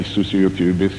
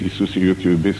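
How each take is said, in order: Both takes have the same delivery.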